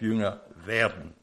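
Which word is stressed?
werden. The stress falls on the second word. The focus is on becoming a disciple. The speaker calls it right. "sondern auf"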